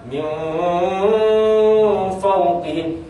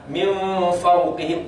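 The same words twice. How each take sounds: First: The hidden nasal sound is drawn out too long. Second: The hidden nasal sound is held only briefly. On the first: The speaker calls it wrong. "jangan ... itu salah" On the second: The speaker calls it right. "jangan berlama-lama hanya dua harakat"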